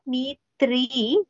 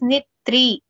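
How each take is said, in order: First: The first vowel is held long. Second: The first vowel is kept short. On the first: The speaker calls it wrong. "It's not knee three" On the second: The speaker calls it right. "it is knit three. No elongation for na"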